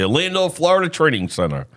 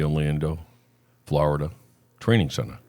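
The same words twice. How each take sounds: First: It is said in a confident, convincing way. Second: It is said in a flat, unconvincing way. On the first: The speaker calls it right. "It's a little bit better" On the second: The speaker calls it wrong. "it didn't sound convincing"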